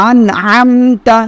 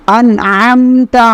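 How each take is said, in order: No difference in how they are said.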